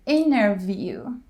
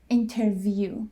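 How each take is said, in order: First: The T after the N is dropped. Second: The T after the N is pronounced. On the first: The speaker calls it right. "When T comes after N, we drop the T. So it's interview" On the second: The speaker calls it wrong. "instead of interview"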